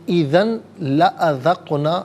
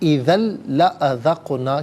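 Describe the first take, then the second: First: The n sound is pronounced clearly before the l. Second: The n sound merges into a doubled l sound. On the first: The speaker calls it wrong. "पढ़ना गलत है" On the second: The speaker calls it right. "लाम की आवाज़ को अदा किया जाएगा"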